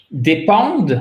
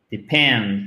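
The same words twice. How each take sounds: First: Dépend with French vowels, stress on the last syllable; wrong French-style dépend. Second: Depend stressed on the second syllable, pend; English depend. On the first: Teacher showing students the mistake, French-style dépend. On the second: Teacher modelling the right stress for students, Depend. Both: Shown as a demonstration. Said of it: "ne faites pas un dépend, non".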